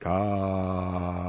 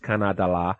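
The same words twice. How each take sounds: First: It is said slowly and drawn out. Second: It is said at normal speed.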